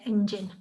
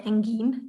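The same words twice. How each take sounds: First: The g is said like a j. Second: The g is said as a hard g. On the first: The speaker calls it right. "we say engine" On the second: The speaker calls it wrong. "we don't say engine"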